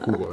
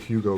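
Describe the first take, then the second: First: The name is said the speaker's native-language way. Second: The name is said the American English way. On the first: This is how the speaker's home language says it. "in my language we pronounce that name as Hugo" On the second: This is how people in the United States say it. "I say Hugo because I'm in the States"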